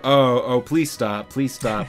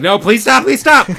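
First: It is said very slowly. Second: It is said very fast.

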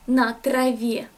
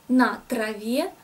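No difference in how they are said.

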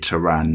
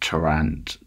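First: The final T is silent. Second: The final T is sounded. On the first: The speaker calls it right. "Then you say it Taran" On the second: The speaker calls it wrong. "not Tarant"

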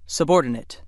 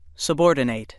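First: The last syllable is a weak 'nit' sound. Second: The last syllable is a full 'nate' sound. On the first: It is an adjective or noun: lower in rank, or a person of lower rank. "The other pronunciation of word 17 is subordinate" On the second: It is a verb: to put in a lower position. "If word 17 is used as a verb that means to put in a lower or secondary position, it is pronounced subordinate"

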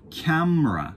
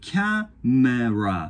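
First: The middle vowel is dropped. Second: The middle vowel is pronounced. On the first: "実際は" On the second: "ここに母音があるんですけど"

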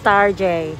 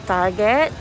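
First: It ends with a soft 'zhay' sound. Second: It ends with a hard T sound. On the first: "my husband pronounced it as Tarjay" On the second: "this place called Target"

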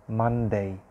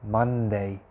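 No difference in how they are said.

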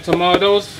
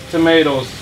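First: It is said with a non-American pronunciation. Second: It is said with an American pronunciation. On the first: This is how the speaker's own community says it. "We say tomatoes" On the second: This is how Americans say it. "Americans say tomatoes"

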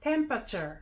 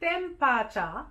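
First: It is said with normal English pronunciation. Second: It is said in Japanese katakana style.

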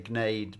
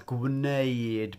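First: The word begins with a plain 'g' sound. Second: The word begins with a full 'gw' sound. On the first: This is the relaxed everyday form. "we just say gneud because we're a bit lazy" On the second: This is the full written form. "you see it written as gwneud"

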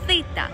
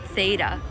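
First: It is pronounced the Greek way. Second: It is pronounced the English way. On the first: The speaker calls it right. "it's theta" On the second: The speaker calls it wrong. "This is not theta"

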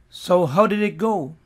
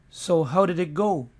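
No difference in how they are said.

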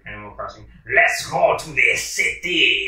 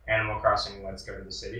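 First: It is said in an exaggerated fake French accent. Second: It is said in the speaker's ordinary accent. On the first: "in a very bad, fake French accent" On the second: "instead of it reading"

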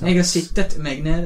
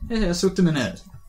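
First: The verb is said in the standard written form. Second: The verb is said in a local dialect form. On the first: This is the standard written-language version. "Jeg vet ikke hvordan man sier det på bokmål" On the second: This is how the speaker normally talks. "det er et ord jeg bruker hele tiden når jeg snakker"

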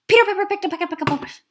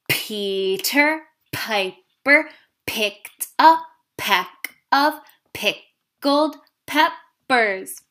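First: It is said really fast. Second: It is said at a normal speed.

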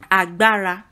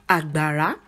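First: Mid, high, then mid tone across the syllables. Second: Low, low, then high tone across the syllables. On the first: "re mi re agbara" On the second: "Dodomi are the tone marks that make up agbara"

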